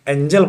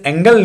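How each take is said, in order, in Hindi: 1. g नरम है, जैसे 'jam' में। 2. g कड़ा है, जैसे 'go' में। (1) "एंजल बोलेंगे" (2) "ऐसे एंगल नहीं बोलेंगे"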